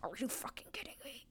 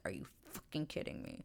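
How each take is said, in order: First: Whispered mock yell, quicker and higher; pissed-off whisper. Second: Retold pissed-off disbelief. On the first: Man left in the dust, whispering in mock fury. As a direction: hiss it like a hushed outburst. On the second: Man left without the last word, quietly incredulous. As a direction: mutedly act out someone pissed. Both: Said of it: "he is pissed 'cause he's like".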